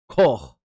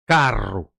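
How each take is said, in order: First: Another island's dialect form, without a rolled r. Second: The Fogo dialect form, with a rolled r.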